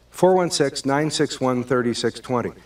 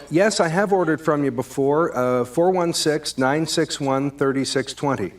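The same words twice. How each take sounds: First: Repeating the number, clearly annoyed; irritated tone. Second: Patient version. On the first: Acted. Caller repeating his number to the pizza guy, irritated. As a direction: let impatience creep in. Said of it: "that tone in my voice". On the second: Shown as a demonstration. Caller patiently giving his number to the pizza guy, friendly. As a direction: stay pleasant while repeating. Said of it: "the second version of that".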